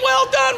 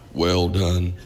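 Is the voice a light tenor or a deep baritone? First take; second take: light tenor; deep baritone. First: It is said in a light Irish tenor voice. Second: It is said in a deep, rich baritone voice.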